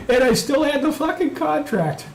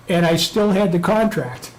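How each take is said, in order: First: Laughing boast. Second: Said in the usual way. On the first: Real, not acted. Gloating laugh repeat.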